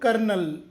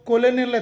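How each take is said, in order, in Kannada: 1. ಇದು 'ker' ಇಂದ ಶುರುವಾಗುತ್ತೆ, ಎರಡು ಉಚ್ಚಾರಾಂಶಗಳಿವೆ. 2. ಇದು 'ko' ಇಂದ ಶುರುವಾಗುತ್ತೆ, ಮೂರು ಉಚ್ಚಾರಾಂಶಗಳಿವೆ. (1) "ಇದರ ಉಚ್ಚಾರ ಕರ್ನಲ್" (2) "ಅನ್ನಬಾರ್ದು"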